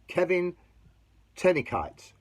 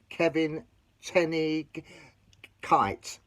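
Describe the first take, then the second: First: The G in the surname is left silent. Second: The G in the surname is pronounced.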